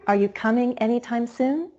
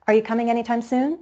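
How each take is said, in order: First: Drawn-out climb from stressed "coming" to "soon"; slower stepping rise. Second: Fast question climbing from "coming" to "soon"; stepping rise. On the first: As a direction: stretch it out, each syllable higher up to "soon". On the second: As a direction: step quickly up, syllable by syllable, after "coming". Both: Shown as a demonstration. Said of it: "to step up even higher in pitch".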